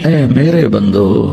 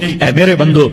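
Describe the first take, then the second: First: It is said in a warm, loving tone. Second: It is said in a plain, unaffectionate tone. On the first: The speaker calls it right. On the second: The speaker calls it wrong.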